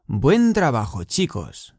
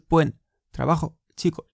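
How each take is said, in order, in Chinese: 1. 两个词连在一起，没有停顿。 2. 两个词之间有停顿，分开了。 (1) "要连读" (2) "不是"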